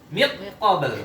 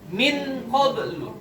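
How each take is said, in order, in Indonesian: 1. N melebur sepenuhnya ke bunyi q. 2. N diucapkan dengan jelas sebelum q. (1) "Kalau dibaca idgham" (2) "Kalau dibaca idhar ini gimana bacanya?"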